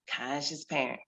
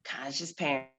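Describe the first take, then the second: No difference in how they are said.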